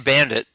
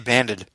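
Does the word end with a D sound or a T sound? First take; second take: T sound; D sound. First: The word ends with a clear T sound. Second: The word ends with a D sound. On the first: "you don't put a T on the end of it" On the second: "you put a D on the end of it"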